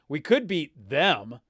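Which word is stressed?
them. The stress falls on the word them. This particular opponent is one worth beating.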